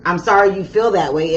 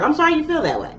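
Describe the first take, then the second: First: Said in the usual way. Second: High, sugary mock-sweet apology; sarcastic fake apology. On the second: Cancer brushing off a slighted person, mock sweet. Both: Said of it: "you're like".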